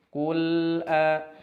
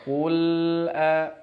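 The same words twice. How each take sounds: No difference in how they are said.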